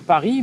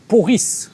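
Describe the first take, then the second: First: The first vowel is an open 'a' sound. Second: The first vowel is an 'o' sound. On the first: The speaker calls it right. "le mec dit pas Paris" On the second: The speaker calls it wrong. "mais il va dire euh, Poris"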